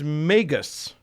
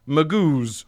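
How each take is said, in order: First: The second syllable sounds like 'gus'. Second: The second syllable sounds like 'goose'. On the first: This is the standard dictionary form. "The singular is Magus" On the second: This is how the speaker would rather say it. "which I really want to pronounce Magoos"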